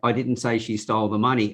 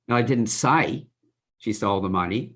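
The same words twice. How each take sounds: First: It is said flat, with no word stressed. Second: The stress is on the word say.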